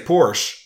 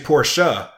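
First: The ending of the word is dropped. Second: The ending of the word is sounded. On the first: The speaker calls it wrong. "people say Porsche" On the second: The speaker calls it right. "it's actually Porsche. You got to say the sh at the end"

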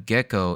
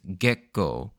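First: The name flows smoothly with no break inside. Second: The name has a sharp break in the middle. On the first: "Instead of Gekko" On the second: "There's like a sort of a harsh pause in the middle"

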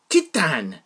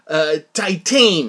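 First: The word is said with a French pronunciation. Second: The word is said with an English-style pronunciation. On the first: The speaker calls it right. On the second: The speaker calls it wrong.

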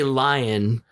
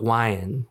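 First: The word begins with an l sound. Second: The word begins with a w sound. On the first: This is the usual way people say it. "you would say lion" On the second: This is how it came out with a speech impediment. "but I would be like wyan"

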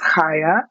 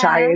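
First: The name is said with a Hebrew-style first sound. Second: The name is said with an English-style first sound. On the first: The speaker calls it right. "a Hebrew name, so of course" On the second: The speaker calls it wrong. "it's not Chaya"

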